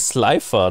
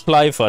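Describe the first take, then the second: First: The name begins with a plain 's' sound. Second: The name begins with an 'sh' sound. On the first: This is the name's usual form. "Der ist doch eigentlich Slifer, ne?" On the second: This is the form used in this version. "Aber hier ist es Schleifer"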